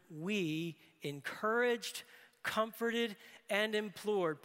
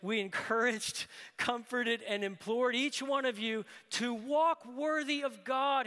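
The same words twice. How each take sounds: First: Each word laid down slowly, one at a time; slow deliberate reading. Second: Louder and higher, driving the three verbs home; preached in full. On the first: Preacher reading the verse to the congregation, slow and deliberate. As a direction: read the three verbs slowly, letting each land. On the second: Preacher rereading the verse to the congregation, loud and urgent. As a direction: throw the words out to the room. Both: Shown as a demonstration. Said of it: "Preachers love groupings of three".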